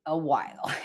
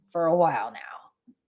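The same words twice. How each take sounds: First: Said in the usual way. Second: Breathy whisper, trailing off; rueful whispered aside. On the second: Real, not acted. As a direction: whisper it under your breath. Aside on slow progress.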